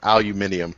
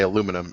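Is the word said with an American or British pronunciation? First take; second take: British; American. First: It has five syllables, al-u-MI-ni-um. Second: It has four syllables, al-U-mi-num.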